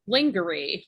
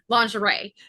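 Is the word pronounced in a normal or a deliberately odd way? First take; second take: odd; normal. First: The word is pronounced in a deliberately odd way. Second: The word is pronounced in the usual way. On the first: The speaker calls it wrong. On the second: The speaker calls it right.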